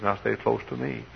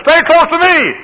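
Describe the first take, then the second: First: Gentle warning. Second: Very high, loud pulpit shout; shouted command. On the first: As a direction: say it quietly, as kindly advice. Lord's first, gentle warning. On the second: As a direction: holler it as an urgent warning. Lord's warning repeated, shouted. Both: Retold or imitated.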